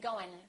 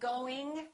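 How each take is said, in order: First: The final g sound is dropped. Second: The final g sound is fully pronounced. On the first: "Sometimes the G disappears" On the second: "Instead of saying going"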